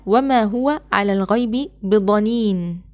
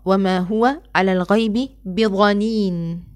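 First: ض in ضنين said as a heavy emphatic d; recited with ض. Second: ضنين said with a ظ sound, ظنين; recited with ظ. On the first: Teacher reciting the verse with ض. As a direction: recite with ضنين pronounced dhanin, slow. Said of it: "وكذلك في قوله تعالى". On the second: Teacher shows the ظ reading of the verse. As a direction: recite slowly with ظ, zhanin. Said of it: "قرئت بإبدال الضاد ظاء". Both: Shown as a demonstration.

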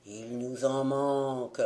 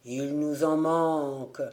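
First: Low, hollow ghostly chant; sepulchral voice. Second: Hollow ghostly chant, falling at the end; sepulchral voice. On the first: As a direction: intone it like drowned sailors from the grave. (voix sépulcrale, grave et creuse) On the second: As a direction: repeat it like a dead crew from the sea. (voix sépulcrale qui retombe) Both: A narrator's reading. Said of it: "d'une voix sépulcrale".

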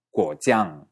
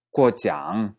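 First: Guojiang with a falling tune; contrasting tones. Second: Guojiang with a rising tune; contrasting tones. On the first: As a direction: say guojiang dropping at the end. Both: Shown as a demonstration. Teacher contrasting the tones of guojiang. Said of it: "si uno dice guojiang".

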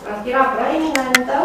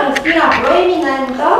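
First: Said in the usual way. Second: "proeminentă" pushed out with a rise; emphatic definition. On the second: Shown as a demonstration. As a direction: announce the term "Rostirea proeminentă", leaning on "proeminentă". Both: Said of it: "definiție e următoarea".

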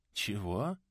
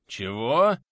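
First: Said in the usual way. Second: Loud, rising, astonished what; startled surprise. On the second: A narrator's reading. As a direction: jump at the unexpected news. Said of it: "аж подпрыгнул от неожиданности собеседник".

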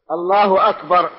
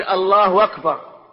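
First: "أكبر" begun with a crisp glottal stop, "Allaahu akbar"; clearly articulated hamza. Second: "الله أكبر" run together as "Allaahu-wakbar", hamza lost; imitated mispronunciation. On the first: Shown as a demonstration. Teacher correcting the student's takbir, "أكبر" with its hamza fully sounded. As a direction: separate "أكبر" from "الله" with a firm hamza. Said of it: "يعني يحقق الهمزة". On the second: Teacher imitating a student's takbir, "أكبر" without its clear hamza. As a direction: slur the hamza of "أكبر" into the word before. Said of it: "هكذا نطق أخينا".

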